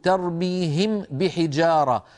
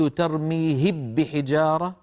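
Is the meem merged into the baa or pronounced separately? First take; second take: separately; merged. First: The meem and baa are released separately. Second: The meem merges into a doubled baa sound. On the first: This is clear pronunciation, which no reciter does. "فرفعت شفتي مرتين، مرة عن الميم ومرة عن الباء" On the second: This is full assimilation, which no reciter does. "لو قلت ترميهب بحجارة فإنني حينئذ أكون قد أدغمت الميم في الباء"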